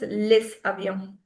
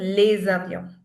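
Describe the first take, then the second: First: The words are linked with an s sound. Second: The words are linked with a z sound. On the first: The speaker calls it wrong. "Just that the S sound, you'll not pronounce it as" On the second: The speaker calls it right. "We'll pronounce it as"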